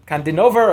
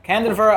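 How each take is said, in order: First: "Kandinover" with a full "o" in "nover"; alternate surname pronunciation. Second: "Kandinover" squeezed to KAN-den-ver, losing the "o"; alternate surname pronunciation. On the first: Lecturer unsure of an author's last name, alternate pronunciation. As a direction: say "Kandinover" as kahn-dih-NOH-ver. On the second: Lecturer offering another reading of the name, alternate pronunciation. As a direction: say "Kandinover" with a short "a" and swallowed middle. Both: Shown as a demonstration. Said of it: "not sure how you pronounce his".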